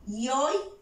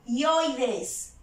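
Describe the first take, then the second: First: "ioides" split into ioi, pause, des; "ioides" with ioi held together, then des apart; syllable by syllable. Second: Said in the usual way. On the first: Shown as a demonstration. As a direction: sound out "ioides" in two syllables, ioi rising. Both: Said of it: "Tres vocales en una misma sílaba".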